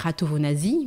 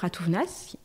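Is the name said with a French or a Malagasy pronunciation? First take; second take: French; Malagasy. First: The name is said with a French pronunciation. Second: The name is said with its original Malagasy pronunciation. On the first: This is how people in France say the name. The speaker calls it wrong. "en France on dit Ratovonazi, mais c'est pas la bonne prononciation" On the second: This is how the name is really pronounced. The speaker calls it right. "Je m'appelle"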